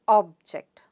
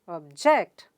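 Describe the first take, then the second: First: The stress is on the first syllable. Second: The stress is on the second syllable. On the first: It is used as a noun. "The stress is on O sound" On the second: It is used as a verb. "the second syllable gets stressed"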